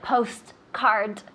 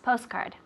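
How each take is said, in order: First: The T is clearly pronounced, said slowly. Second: The T is almost silent, said fast. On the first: "we're not like postcard" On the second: "the T almost sounds silent when you when you say it fast"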